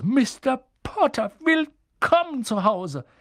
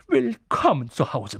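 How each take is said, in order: First: Much higher, slow and drawn out, tearful welcome; feierlich gesteigert. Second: Put-on a touch louder, moved old man welcoming; gerührter Barmann. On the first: Acted. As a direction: stretch each word out, overcome. Barmann wiederholt den Gruß. (alter Wirt, hoch, langsam und feierlich) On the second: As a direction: greet him with tears in your eyes. Barmann begrüßt Harry gerührt. (alter Wirt, gerührt und etwas lauter)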